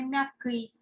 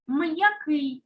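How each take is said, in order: First: The m blends softly into the following vowel. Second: The m is separated from the following vowel. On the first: The speaker calls it wrong. "а не м'який" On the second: The speaker calls it right. "Чуємо, як розділяється"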